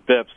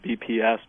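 First: It is said as one word rhyming with lips. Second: It is spelled out as three separate letters. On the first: The speaker calls it right. "It's BIPS" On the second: The speaker calls it wrong. "Some others might spell out the BPS"

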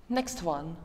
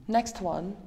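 The two takes are said the same way.

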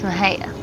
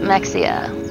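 First: The middle consonant is an H sound. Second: The middle consonant is a KS sound. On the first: The speaker calls it right. "it's Mahia" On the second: The speaker calls it wrong. "Most people pronounce it Mexia, and it's not"

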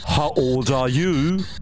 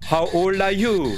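First: It is said in a put-on English accent. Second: It is said in the speaker's usual accent.

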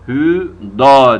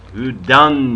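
First: The word ends with a long vowel. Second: The word ends with an n sound. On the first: This is the form used when stopping. "diye duruluyor" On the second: This is the written form. "yazıyor"

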